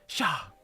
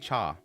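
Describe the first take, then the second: First: The word begins with an 'sh' sound. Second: The word begins with a 'ch' sound. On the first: This is how a character from a show says it. "every now and then I say sha" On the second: This is how Japanese speakers say it. "I think it's cha. That's how the Japanese say it"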